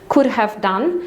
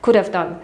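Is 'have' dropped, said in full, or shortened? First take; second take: full; dropped. First: The word 'have' is pronounced in full. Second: The word 'have' is not pronounced at all. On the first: "kiedy mówimy could have done" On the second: "Nawet czasami nie wymawiamy tego have"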